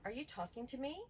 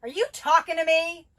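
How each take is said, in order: First: Mild, even question with a rising end; calm question. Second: Loud, high confrontational yell, stress on you; angry shout. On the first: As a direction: ask it calmly, no edge. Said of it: "So one of them would be". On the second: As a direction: challenge them, shouting. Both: Shown as a demonstration.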